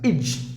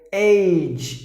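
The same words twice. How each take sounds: First: The ending has a short, reduced vowel sound. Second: The ending has a long 'ay' vowel sound. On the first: The speaker calls it right. "It should be shut sound" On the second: The speaker calls it wrong. "you should not pronounce it with age"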